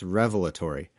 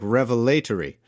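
First: It is said in an American accent. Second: It is said in a British or Australian accent.

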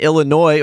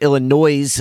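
First: It is said in the speaker's usual pronunciation. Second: It is said in a different, imitated pronunciation.

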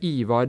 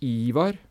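First: The name is said with tonal accent 2. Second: The name is said with tonal accent 1. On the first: "det er det som heter tonelag 2" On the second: "Men du kunne sagt Ivar"

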